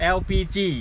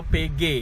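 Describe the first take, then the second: First: The letters are named in the English way. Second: The letters are named in the Indonesian way.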